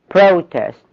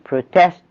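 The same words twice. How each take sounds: First: The stress is on the first syllable. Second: The stress is on the second syllable. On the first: It is used as a noun. "is a noun" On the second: It is used as a verb. "is a verb"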